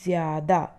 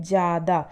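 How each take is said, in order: First: ज़्यादा with the y glide, jyada; correct form. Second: ज़्यादा said as jada, no y; wrong form. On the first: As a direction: sound the y in ज़्यादा. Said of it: "लेकिन होता क्या है". (ज़्यादा, य के साथ) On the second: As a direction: drop the y in ज़्यादा. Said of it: "हम क्या बोलते हैं". (ज़्यादा बिना य के) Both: Shown as a demonstration.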